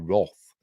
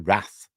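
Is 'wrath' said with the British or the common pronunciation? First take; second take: British; common. First: Wrath is said with the British English vowel. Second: Wrath is said with the common everyday vowel. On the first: "the English pronunciation is supposed to be Wrath" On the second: "but we all say Wrath"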